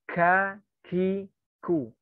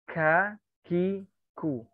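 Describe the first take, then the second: Both takes have the same delivery.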